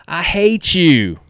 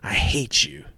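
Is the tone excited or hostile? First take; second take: excited; hostile. First: The voice sounds playful and excited. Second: The voice sounds cold and hostile. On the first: The speaker is fondly jealous and happy for the friend. "the tone of my voice, you can tell I'm excited for you too" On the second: The speaker wants to hurt the friend. "in order to retaliate and make him or her feel bad as well"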